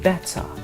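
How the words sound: It is said in a British accent. "in British accent they say it better"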